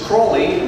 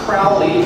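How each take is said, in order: First: The first syllable rhymes with 'slow'. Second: The first syllable rhymes with 'cow'. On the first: The speaker calls it right. "the proper pronunciation is Crowley" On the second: The speaker calls it wrong. "not Crowley"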